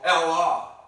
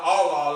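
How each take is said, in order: First: "Allah" with a flat a as in cat, AL-lah; his own Allah. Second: "Allah" with a broad open aw sound, AW-lah; Palestinian-style Allah. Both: Shown as a demonstration. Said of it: "Not Allah like the Palestinian call".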